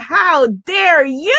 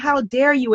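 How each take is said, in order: First: It sounds admiring and celebratory. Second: It sounds indignant and reproachful. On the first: The daring is being celebrated. "is saying, ... How beautiful that you dare" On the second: The daring is being condemned. "instead of saying"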